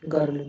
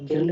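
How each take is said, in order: First: गर्ल with a neutral "uh" vowel; correct pronunciation. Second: गिर्ल with a front i-like vowel; wrong pronunciation. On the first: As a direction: say गर्ल as "gurl". (गर्ल में "अ" की आवाज़) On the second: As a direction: say गिर्ल as "girl", sounding the i towards "gerl". (गिर्ल में "इ" की आवाज़) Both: Shown as a demonstration. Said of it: "गिर्ल नहीं बोलते".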